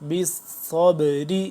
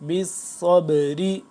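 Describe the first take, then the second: The two takes are said the same way.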